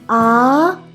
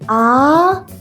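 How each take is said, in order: First: The pitch rises like a question. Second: The same.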